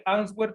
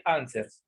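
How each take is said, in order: First: "answer" read as Spanish ans-GWER; "answer" sounded out letter by letter in Spanish, ans-gwer; spelling pronunciation. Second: "answers" with silent w, AN-sers; English "answers", two syllables with the w dropped; correct English pronunciation. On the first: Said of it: "se escribe answer". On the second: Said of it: "pero se pronuncia answers". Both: Shown as a demonstration.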